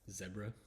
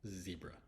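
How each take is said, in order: First: It is said in an Australian accent. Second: It is said in an American accent.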